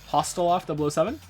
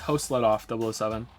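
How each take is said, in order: First: The name begins with the two syllables 'hostel'. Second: The name begins with three syllables 'host let off'. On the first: The speaker calls it wrong. "I said it wrong the last time" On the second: The speaker calls it right. "I think it's it's it's Host let off double oh seven"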